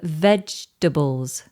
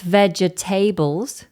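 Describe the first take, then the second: First: The second vowel is dropped from the word. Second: Every syllable is pronounced fully. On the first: The speaker calls it right. "but vegetables" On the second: The speaker calls it wrong. "Not vegetables"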